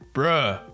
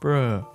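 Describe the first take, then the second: First: It is said in an angry tone. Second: It is said in a sad tone.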